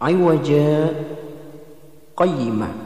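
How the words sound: A brief stop separates the two words. "Di situ ada bacaan saktah"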